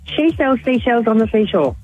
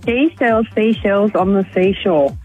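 First: It is said very fast. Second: It is said at a normal speed.

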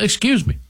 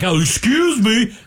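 First: It is said in a curt way. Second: It is said in a polite way.

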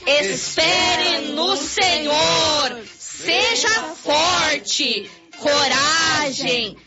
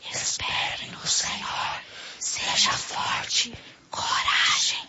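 First: It is said loudly and strongly. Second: It is said very softly and quietly.

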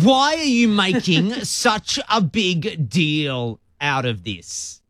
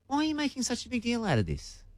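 First: It is asked in an annoyed, dismissive tone. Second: It is asked in a curious, puzzled tone.

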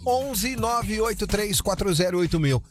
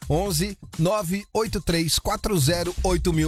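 First: The number is said fast. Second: The number is said slowly.

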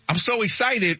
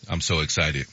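First: It is said with excitement. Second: It is said flatly without emotion.

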